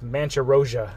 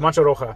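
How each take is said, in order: First: The name is said with an imitated mispronunciation. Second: The name is said in the speaker's own pronunciation. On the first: The speaker calls it wrong. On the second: The speaker calls it right.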